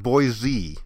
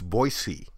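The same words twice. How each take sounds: First: The middle consonant is a voiced z sound. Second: The middle consonant is a voiceless s sound. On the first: The speaker calls it wrong. "it's not Boise" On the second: The speaker calls it right. "It's not a z sound"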